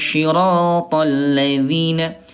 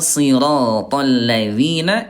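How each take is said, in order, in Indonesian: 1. Kata pertama dimulai dengan bunyi 'sh'. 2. Kata pertama dimulai dengan bunyi 's' yang tebal. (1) "saya sering mendengar ada yang baca gini" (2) "bukan shin ya tapi sad"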